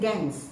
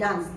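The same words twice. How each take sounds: First: It is said with an American accent. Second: It is said with a British accent. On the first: "the Americans will say dance" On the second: "The British will say dance"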